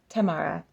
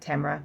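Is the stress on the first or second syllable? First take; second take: first; second. First: The stress is on the first syllable. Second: The stress is on the second syllable. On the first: The speaker calls it right. "Emphasis on the Tam" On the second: The speaker calls it wrong. "I would have said like Tamara"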